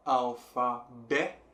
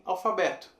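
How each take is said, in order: First: "alfabeto" slowly, syllable by syllable, leaning on "bé"; stress on bé. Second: Said in the usual way. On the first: Shown as a demonstration. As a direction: break up "alfabeto" to show the strong "bé". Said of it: "bé é a sílaba forte". ("alfabeto" sílaba por sílaba, com "bé" forte) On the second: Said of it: "Se você parar bem pra pensar".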